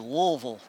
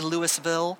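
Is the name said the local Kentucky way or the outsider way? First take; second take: local; outsider. First: The name is said the local Kentucky way. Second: The name is said the outsider way.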